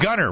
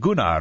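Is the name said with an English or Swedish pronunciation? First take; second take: English; Swedish. First: The name is said with English pronunciation. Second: The name is said with Swedish pronunciation. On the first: The speaker calls it right. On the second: The speaker calls it wrong.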